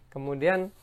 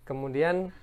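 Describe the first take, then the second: No difference in how they are said.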